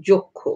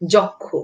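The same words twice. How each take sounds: First: যক্ষ with an o first vowel, jokkho; যক্ষ said the spoken way; spoken pronunciation. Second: যক্ষ with an open ɔ first vowel; যক্ষ read as spelled, jɔkkho; read as written. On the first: (যক্ষ ও-কারের মতো উচ্চারণে) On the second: (যক্ষ লিখিত রূপে) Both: Shown as a demonstration. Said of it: "যদি ক্ষীয় থাকে তাহলে".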